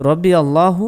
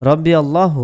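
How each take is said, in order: The two takes are said the same way.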